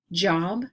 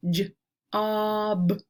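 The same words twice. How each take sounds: First: Said in the usual way. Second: "J-ob" with a long, held o; roller-coaster word. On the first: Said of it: "roller coaster some words". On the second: Shown as a demonstration. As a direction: separate j, then stretch the vowel of "job". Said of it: "putting an emphasis on the middle".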